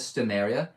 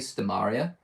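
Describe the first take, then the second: First: The middle syllable sounds like 'mere', not 'mar'. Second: The middle syllable sounds like 'mar', as in Stomar. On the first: It is the speaker's own uncommon way of saying it. The speaker calls it wrong. "I think I'm one of the few people that actually says Stomeria" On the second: It is the common way that follows the name's origin. The speaker calls it right. "Most people say Stomaria, which, funnily enough, is probably the better way to say it"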